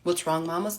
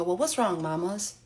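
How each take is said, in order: First: Disbelieving "What's wrong, mamas?" flatly; incredulous repeat. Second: Cooing at the washer. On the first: Shown as a demonstration. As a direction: quote yourself in disbelief. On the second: Retold or imitated. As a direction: fondly coo "mamas" like to a pet. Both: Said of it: "I beg your finest pardon?".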